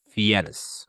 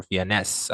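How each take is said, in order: First: "Fiennes" slowly, as a two-syllable guess; tentative alternative pronunciation. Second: "Fiennes" slowly, ending in a clear "ness"; second pronunciation guess. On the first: Teacher unsure of a surname, tentative pronunciation. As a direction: try "Fiennes" low and drawn out, unsure. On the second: Teacher offering another surname reading, tentative pronunciation. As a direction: try "Fiennes" low, with a fuller last syllable. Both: Shown as a demonstration. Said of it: "I don't know how to s-, uh, pronounce that name".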